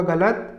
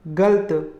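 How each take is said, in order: First: गलत in two syllables, "ga-lat"; correct गलत. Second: गलत squeezed to "galt"; wrong गलत. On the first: Teacher giving correct form, गलत as "ga-lat". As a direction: keep both vowels in गलत. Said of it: "इसका शुद्ध रूप होगा". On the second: Teacher showing the error, गलत as "galt". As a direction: drop the second vowel of गलत. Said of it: "ये अशुद्ध रूप है". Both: Shown as a demonstration.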